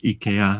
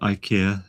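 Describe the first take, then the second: First: It is pronounced the original Swedish way. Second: It is pronounced the common English way. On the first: The speaker calls it right. "proper pronunciation is IKEA" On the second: The speaker calls it wrong. "they're sometimes called IKEA"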